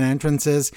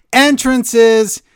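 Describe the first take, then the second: First: Said in the usual way. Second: Higher, louder excited shout; loud exclamation. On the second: Real, not acted. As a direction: belt out the word Entrances. Shouts repeated word from email.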